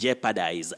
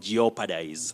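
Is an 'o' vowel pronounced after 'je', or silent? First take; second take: silent; pronounced. First: No 'o' vowel is heard after 'je'. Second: An extra 'o' vowel is heard after 'je'. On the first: The speaker calls it right. "the verb is jeopardize" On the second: The speaker calls it wrong. "not jeopardize"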